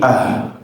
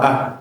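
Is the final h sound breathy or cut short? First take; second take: breathy; cut short. First: The final h has an audible flow of breath. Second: The final h is cut short without breath. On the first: The speaker calls it right. "huruf H itu dikasih aliran nafas" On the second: The speaker calls it wrong. "Jangan berhenti kita baca cuma ah, ... ini kurang tepat"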